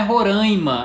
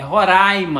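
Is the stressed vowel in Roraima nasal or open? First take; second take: nasal; open. First: The stressed vowel sounds nasal. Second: The stressed vowel sounds open. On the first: The speaker calls it wrong. "não é Roraima" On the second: The speaker calls it right. "é Roraima"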